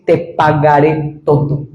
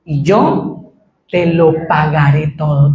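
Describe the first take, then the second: First: Slow, lower "te pagaré todo" with "te" stressed; slow emphatic "te". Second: Slow, lower begging repeat; slow, low humble vow; pleading servant. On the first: Shown as a demonstration. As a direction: underline "te pagaré todo" with your voice. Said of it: "subraye ese". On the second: Retold or imitated. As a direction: plead the promise slowly. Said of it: "Qué dice al final del versículo".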